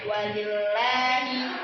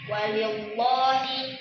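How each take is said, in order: First: The L in Allah is light and thin. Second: The L in Allah is heavy and thick. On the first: The speaker calls it right. "Jadi dibacanya" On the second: The speaker calls it wrong. "itu salah ya"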